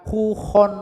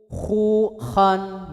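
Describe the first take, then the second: First: The second vowel keeps the lips rounded. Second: The second vowel is open and unrounded. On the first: The speaker calls it wrong. "bukan khu khon" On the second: The speaker calls it right. "Khu khu khan gitu"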